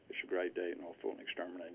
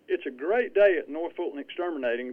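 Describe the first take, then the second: First: The voice is flat, never going up or down. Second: The voice is lively with rising and falling pitch. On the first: The speaker calls it wrong. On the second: The speaker calls it right.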